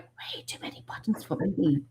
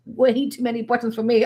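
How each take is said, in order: First: Unvoiced whisper to herself; whispered aside. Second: Said in the usual way. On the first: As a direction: whisper it like a private complaint. First take, muttered to herself.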